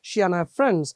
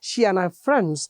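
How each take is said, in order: First: The r sound in 'are' is dropped. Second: The same.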